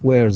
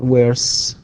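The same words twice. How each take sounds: First: The word ends with a buzzing z sound. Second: The word ends with a hissing s sound. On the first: The speaker calls it right. "تنطق Z" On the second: The speaker calls it wrong. "not S"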